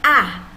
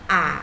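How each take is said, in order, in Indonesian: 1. Nada turun tajam dari tinggi ke rendah. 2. Nada turun dulu lalu naik. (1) "nada empat ... turun ke bawah, dipukul" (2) "nada tiga ... turun dulu baru naik"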